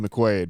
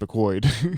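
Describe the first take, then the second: First: The name's vowel sounds like 'quaid'. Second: The name's vowel sounds like 'quoid'. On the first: This is the expected way to say it. The speaker calls it wrong. "you want it to be McQuaid" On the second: This is how the name is actually said. The speaker calls it right. "but it's McQuoid"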